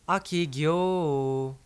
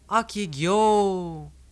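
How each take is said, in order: First: It is said as a detached statement. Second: It is shouted as a statement to someone.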